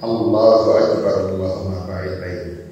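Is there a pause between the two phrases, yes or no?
no. The phrases follow each other without pause.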